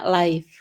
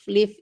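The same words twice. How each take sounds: First: The word has a long 'eye' vowel. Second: The word has a short 'i' vowel. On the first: It means a direct broadcast. "Kalau live itu adalah tayangan atau siaran langsung, itu dibacanya live" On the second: It means to reside somewhere. "Live itu artinya tinggal"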